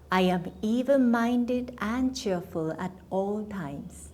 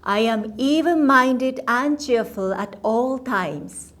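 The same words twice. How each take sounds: First: It is said at ordinary speaking volume. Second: It is said loudly and forcefully. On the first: It helps absorb the meaning of the words. "Now in a normal voice" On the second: It commands the conscious mind to pay attention. "please repeat after me loudly"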